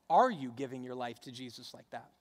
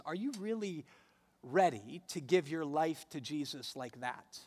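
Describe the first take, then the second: First: Pointed question led by a strong "Are"; stress on ARE. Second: Pause, then lean on "ready"; "ready" set apart after a beat; stress on READY. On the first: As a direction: hit the opening "Are", let the rest drop. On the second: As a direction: challenge them with weight on "ready", rest falling away. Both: Real, not acted. Challenge reworded for contrast.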